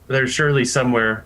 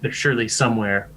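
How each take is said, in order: First: It is said at a normal, fuller volume. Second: It is said in a lowered, quieter voice.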